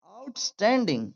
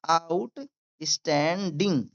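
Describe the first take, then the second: First: Said in the usual way. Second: "outstanding" slowly, out, stan, ding; syllable by syllable. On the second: Shown as a demonstration. Teacher demonstrating to learners, syllable by syllable. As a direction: break "outstanding" into separate pieces. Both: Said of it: "मेरे साथ भी बोलिए".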